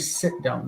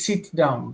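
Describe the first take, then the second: First: The vowel in 'sit' is a short 'i'. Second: The vowel in 'sit' is a long 'ee'. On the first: A native English speaker said it. "They don't say" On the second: An Israeli speaker said it. "So you will hear Israelis say"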